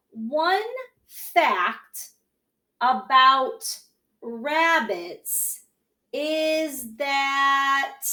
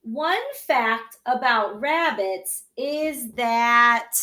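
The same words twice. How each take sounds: First: Each word said alone with pauses; slow word-by-word reading. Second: Slow, even reading of the whole phrase; slow read-along. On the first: Teacher to class, slow word-by-word model reading. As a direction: read it one word at a time for the kids. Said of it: "try to read this along with me". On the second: Teacher rereads sentence for class, slow and even. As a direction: read it slowly so the kids can follow. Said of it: "So let's read it again". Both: Shown as a demonstration.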